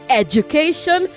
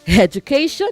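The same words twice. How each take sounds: First: The word starts with a vowel, no h sound. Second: The word starts with an added h sound. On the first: The speaker calls it right. "drop the H when you want to say education" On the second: The speaker calls it wrong. "not education"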